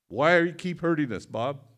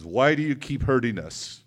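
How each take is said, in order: First: Higher, louder imitated mother's outcry; retold screaming. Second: Loud, imitated anguished plea; retold screaming. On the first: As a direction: push the anguished plea up high and loud. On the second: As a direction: raise your voice as a screaming mother. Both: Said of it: "started screaming at me and crying".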